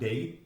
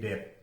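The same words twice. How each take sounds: First: The vowel glides from e toward i. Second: The vowel is a single steady e sound. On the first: The speaker calls it right. "harusnya dibacakan date" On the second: The speaker calls it wrong. "itu jadi date"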